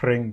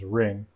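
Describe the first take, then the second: First: The word begins with an h before r. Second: The word begins directly with the r sound. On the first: This is the older form of the word. "H R just becomes R" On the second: This is the later form of the word. "just becomes R"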